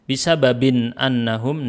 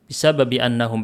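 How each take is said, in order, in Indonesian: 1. Ada bunyi n sebelum annahum. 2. Tidak ada bunyi n sebelum annahum. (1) "tidak dibaca bisa babin annahum, enggak" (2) "praktek bacanya"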